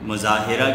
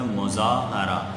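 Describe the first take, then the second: First: The vowel after the h is 'i'. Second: The vowel after the h is 'a'. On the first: The speaker calls it wrong. "गलत है मुज़ाहिरा" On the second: The speaker calls it right. "है के ज़बर के साथ"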